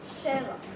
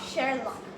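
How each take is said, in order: First: The R sound is dropped before the k. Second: The R sound is clearly pronounced before the k. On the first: "the R is almost silenced" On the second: "instead of"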